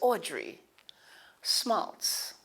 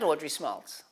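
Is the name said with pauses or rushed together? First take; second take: paused; rushed. First: The name is said slowly with a clear pause. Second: The name is said quickly with no pause. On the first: The listener has time to take the name in. The speaker calls it right. "But the pause is good" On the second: The listener does not really hear the name. The speaker calls it wrong. "Not Audrey Smaltz, because they really didn't hear you"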